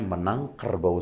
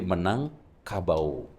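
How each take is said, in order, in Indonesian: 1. R pada kata kedua diucapkan. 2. R pada kata kedua dihilangkan. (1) "Maksudnya menang kerbau saya" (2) "Cuman hilang R-nya jadi menang kabau"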